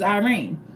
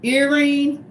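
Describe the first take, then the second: First: Irene with a long eye opening; grandmother's pronunciation. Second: Irene with a short ih opening; Greek pronunciation. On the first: The name her grandmother gave her, grandmother's pronunciation. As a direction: say Irene as eye-REEN, dropping off softly. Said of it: "said it's Irene". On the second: Explaining her name as Greeks say it, Greek pronunciation. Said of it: "in Greek they will say". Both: Shown as a demonstration.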